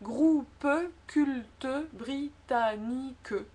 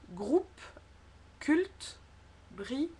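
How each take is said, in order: First: It is said in a southern French accent. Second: It is said in a standard French accent.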